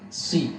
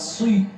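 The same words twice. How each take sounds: First: The S is only slightly thick and heavy. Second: The S is fully thick and heavy. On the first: The speaker calls it right. "Sad ini dibaca tebal tapi tingkatan yang terakhir karena berharkat kasar" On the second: The speaker calls it wrong. "bukan si, bukan full tafkhimnya"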